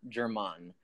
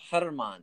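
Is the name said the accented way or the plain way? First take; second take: plain; accented. First: The name is said with the plain pronunciation. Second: The name is said with the accented pronunciation. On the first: The speaker calls it wrong. "not German" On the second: The speaker calls it right. "You got to say it with the accent. It's a Germán"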